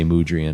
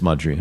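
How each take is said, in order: First: The first syllable sounds like 'mood'. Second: The first syllable sounds like 'mud'. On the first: The speaker calls it wrong. "I used to say Mudrian" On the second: The speaker calls it right. "But it's Mudrian"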